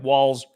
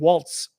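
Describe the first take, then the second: First: The name ends with a plain s sound. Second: The name ends with a ts sound. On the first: The speaker calls it right. "So the Z is pronounced as an S" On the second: The speaker calls it wrong. "I was thinking Waltz almost"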